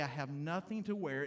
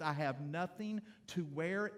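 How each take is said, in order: First: Said in the usual way. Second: Slow "I have nothing to wear" with a rising, hinting end; wife in the closet hinting she wants something new; wife's hinting tone. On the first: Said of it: "When I stand in the closet and I say". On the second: Retold or imitated. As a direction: drop a hint for a new outfit. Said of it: "When Tricia stands in the closet and she says".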